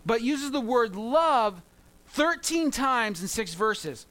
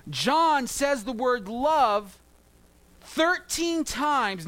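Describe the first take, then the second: First: Slow, weighty "love" then "thirteen"; stress on love. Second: Thirteen said slowly and punched higher; stress on thirteen. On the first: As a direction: drag out "thirteen times in six verses". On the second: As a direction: lean hard on "thirteen times". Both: Shown as a demonstration. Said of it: "I was emphasizing it".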